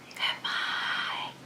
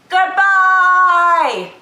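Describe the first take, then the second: First: The word is said very quietly. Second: The word is said very loudly. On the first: "as quiet as we can" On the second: "as loud as we can"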